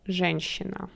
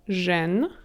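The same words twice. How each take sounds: First: Said in the usual way. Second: Жен-щи-на with long pauses between the three parts; syllable by syllable. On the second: Shown as a demonstration. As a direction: close Жен on н, then щи, then на, each alone. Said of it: "Let's practice this".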